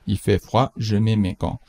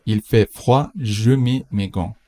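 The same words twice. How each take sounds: First: Said in the usual way. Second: Slow, careful example sentence; slow model read. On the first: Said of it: "repeat at normal speed". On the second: Shown as a demonstration. Teacher reads the example slowly to the class. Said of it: "teacher models slowly".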